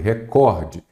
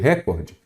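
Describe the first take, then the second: First: The stress is on the second syllable. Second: The stress is on the first syllable. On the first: The speaker calls it right. "eu falei recorde. ... Qual é a sílaba tônica? É o cor" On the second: The speaker calls it wrong. "Eu não falei recorde"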